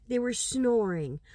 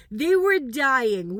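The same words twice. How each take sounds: First: Said in the usual way. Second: "dying" said slow and louder with a falling end; stress on dying. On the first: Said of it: "No, they were dying". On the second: Shown as a demonstration. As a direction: drag out "dying" with weight.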